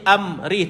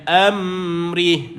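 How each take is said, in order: First: The m sound is touched briefly and dropped. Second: The m sound is held and allowed to flow. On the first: The speaker calls it wrong. "Jangan kita sentuh dan pergi amrih, tak boleh" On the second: The speaker calls it right. "dia jalankan bunyi mim itu"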